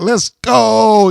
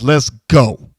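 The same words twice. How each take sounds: First: It is drawn out and upbeat. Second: It is slow, deliberate and threatening. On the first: The fans are invited to join in. The speaker calls it wrong. "you hold it like" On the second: The fans are not needed. The speaker calls it right. "I don't need the fans"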